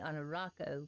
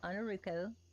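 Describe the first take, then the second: First: The third syllable has an 'ah' vowel. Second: The third syllable has an 'oo' vowel. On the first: The speaker calls it wrong. "everybody calls me Anarako because they pronounce the A instead of the O" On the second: The speaker calls it right. "but it's Ruko. Ru like blue and Ko like toe"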